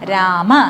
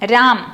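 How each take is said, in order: First: The word ends with a short a vowel. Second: The word ends on the m sound, no final vowel. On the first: "സംസ്കൃതത്തിലോ ... അല്ല രാമ" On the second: "ഹിന്ദിയിൽ എങ്ങനെയാണ് ഈ പദത്തിന് ഉച്ചരിക്കുക?"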